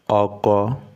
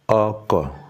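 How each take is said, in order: First: Both syllables stay on the same pitch. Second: The second syllable drops lower in pitch. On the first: It means husband. "when we change the tone of that oko to be oko, re, re" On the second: It means vehicle.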